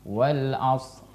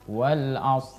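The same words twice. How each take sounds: The two takes are said the same way.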